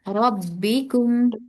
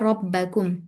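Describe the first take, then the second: First: The vowel after the double b is i. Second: The vowel after the double b is a. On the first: The speaker calls it right. "ये बा के नीचे कचरा है" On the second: The speaker calls it wrong. "आपने पढ़ा रब्बकुम"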